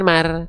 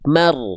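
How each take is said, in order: First: The R sound is thin and light. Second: The R sound is thick and heavy. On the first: The speaker calls it wrong. "jangan nggak berbobot seperti itu" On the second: The speaker calls it right. "harus berbobot"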